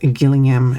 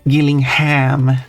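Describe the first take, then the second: First: The final 'ham' syllable is reduced. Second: The final 'ham' syllable is fully pronounced. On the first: The speaker calls it wrong. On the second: The speaker calls it right. "you gotta pronounce the ham if it's in the U S"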